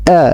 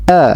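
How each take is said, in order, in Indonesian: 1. Vokalnya dibuka secukupnya. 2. Vokalnya dibuka secukupnya.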